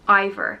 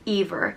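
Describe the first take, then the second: First: The name begins with an 'eye' vowel sound. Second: The name begins with an 'e' vowel sound. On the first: "it's pronounced I-ver" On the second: "which would change the pronunciation to Ever"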